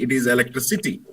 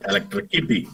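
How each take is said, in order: First: The proper electricity, clearly s not k; correct electricity. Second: Electricity said as elec-tri-ki-pi, a k in the middle; the child's Electricity with a hard k sound; wrong electricity. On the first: Father corrects the boy's electricity with an s. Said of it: "it is not electricity". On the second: Teller demonstrates the boy's Electricity with a k. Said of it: "pronouncing it as electricity". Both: Shown as a demonstration.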